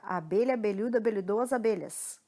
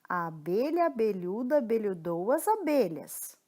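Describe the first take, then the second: First: It is said at a fast pace. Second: It is said at a slow pace. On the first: "Mais rápido agora" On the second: "A gente começa devagar"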